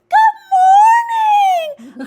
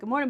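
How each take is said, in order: First: It is said in a bright, chirpy voice. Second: It is said in a flat, subdued voice.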